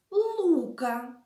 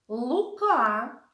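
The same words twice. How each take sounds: First: Лука with a long, stressed У, falling away; stress on first syllable. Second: Лука with the final А stretched and lifted; stress on second syllable. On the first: Teacher names the second bunny son, stressing Лука on ЛУ. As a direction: lean on ЛУ in Лука. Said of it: "Наголос в цих словах падає на". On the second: Teacher names the first bunny son, stressing Лука on КА. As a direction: hit the last syllable of Лука. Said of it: "Наголос в цих словах падає". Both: Shown as a demonstration.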